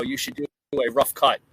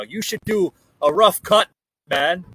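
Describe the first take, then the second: First: Said in the usual way. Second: Badly faked Irish accent, higher and louder. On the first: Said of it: "They said, you know". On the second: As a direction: attempt a hammy Irish accent. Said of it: "worst impersonation of an Irish accent ever".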